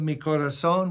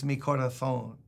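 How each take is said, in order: First: Mi corazón with a plain s for the z; Latin American s. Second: Mi corazón with the z lisped as th, corathón; Spain Spanish th. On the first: Preacher gives the Latin American corazón before the Spanish one. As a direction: say corazón with an s sound. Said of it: "instead of". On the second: Preacher mimics the Castilian way to say corazón. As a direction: lisp the z in corazón as th. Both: Shown as a demonstration.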